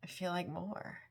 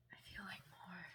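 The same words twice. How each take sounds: First: Said in the usual way. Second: Breathy soft whisper of the phrase. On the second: Real, not acted. Reader repeating the song line to herself, whispered. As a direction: whisper it to yourself.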